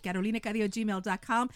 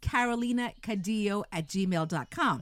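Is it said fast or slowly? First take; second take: fast; slowly. First: It is said at a quicker pace. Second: It is said at a slower pace.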